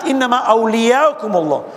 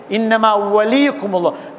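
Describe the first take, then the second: First: أَوْلِيَاكُمُ recited with the plural awliya, aw-li-ya-kum. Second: وَلِيكُمُ recited with the singular wali, wa-li-kum. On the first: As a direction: contrast with the plural أَوْلِيَاكُمُ, not the singular. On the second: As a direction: stress the singular وَلِيكُمُ, not the plural. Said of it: "wilaya is mentioned in mufrad, singular". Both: Shown as a demonstration.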